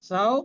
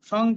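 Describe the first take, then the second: First: The syllable ends in a nasalized vowel. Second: The syllable ends in a clear ng consonant. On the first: The speaker calls it right. "এর উচ্চারণ হবে সারনাসিক ও সাও" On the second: The speaker calls it wrong. "সং কিন্তু নয়"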